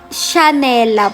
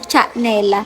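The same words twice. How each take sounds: First: The name begins with a soft sh sound. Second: The name begins with a hard ch sound. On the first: The speaker calls it right. "S H A po yung pagkakabigkas" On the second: The speaker calls it wrong. "hindi po Chanela"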